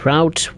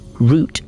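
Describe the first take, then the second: First: The word is said with an American pronunciation. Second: The word is said with a British pronunciation. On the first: "I say route when I'm on in American routes" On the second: "when I'm on British or German or, you know, rest of the world route, then of course I'll say route"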